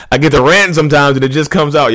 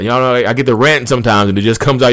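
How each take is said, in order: First: Laughing at himself. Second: Said in the usual way. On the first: Real, not acted. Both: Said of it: "You hear my voice change".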